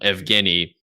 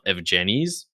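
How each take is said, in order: First: The G is pronounced as a hard G. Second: The G is pronounced as a soft G. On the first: This is the name's real pronunciation. The speaker calls it right. "my real name" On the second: This is how other people often mispronounce the name. The speaker calls it wrong. "mispronounced with a soft G"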